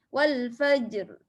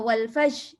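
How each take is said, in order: First: The word ends with an audible r sound. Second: The word ends on the j sound, no r. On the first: The speaker calls it right. "nampak bunyi ra" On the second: The speaker calls it wrong. "Jangan wal faj, jangan berhenti kat jim saja"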